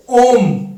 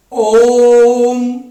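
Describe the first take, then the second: First: Said in the usual way. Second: ओम with the ओ held long over three beats, louder; drawn-out pluta vowel. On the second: Shown as a demonstration. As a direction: stretch the ओ of ओम far out. (ओम का ओ तीन मात्रा तक खींचकर) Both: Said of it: "ध्वनि को लंबा खींचा जाता है".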